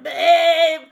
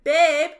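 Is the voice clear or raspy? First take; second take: raspy; clear. First: It is said in a raspy, smoker's voice. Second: It is said in a clear voice.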